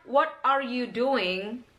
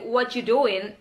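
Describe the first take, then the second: First: 'What are you doing' word by word, slowly; slow, unreduced 'What are you doing'; full form. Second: 'What you doing' squeezed into 'whatchu doin'; casual, reduced 'What you doing'; reduction. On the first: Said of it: "So, pengucapan". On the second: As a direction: link 'What you doing' into one quick chunk. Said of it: "itu adalah reduction". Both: Shown as a demonstration.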